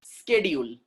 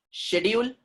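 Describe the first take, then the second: First: Schedule as "skedule", hard k; American sk at the start of schedule; American pronunciation. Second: British sh at the start of schedule; British pronunciation. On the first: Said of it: "American people say schedule". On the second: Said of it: "British people". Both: Shown as a demonstration.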